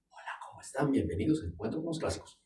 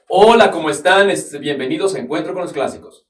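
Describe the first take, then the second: First: It is said softly. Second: It is said loudly.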